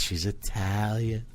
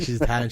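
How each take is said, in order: First: Slower, drawn-out echo as grandma; impressed grandma. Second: Said in the usual way. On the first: Retold or imitated. Grandma hearing the girlfriend is Italian, slow impressed imitation. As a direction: imitate grandma savoring the news. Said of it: "She goes". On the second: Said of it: "I'm like".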